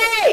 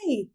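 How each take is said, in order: First: It is called at a high pitch with effort. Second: It is called at a low pitch without effort. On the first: The speaker calls it right. "You'll go, hey" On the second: The speaker calls it wrong. "you won't go, hey"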